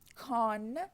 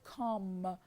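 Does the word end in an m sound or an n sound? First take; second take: n; m. First: The word ends with an n sound. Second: The word ends with an m sound. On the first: This is the basic form of the word. "the basic form" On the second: The final sound adapts to a following m. "n becomes, I mean, m"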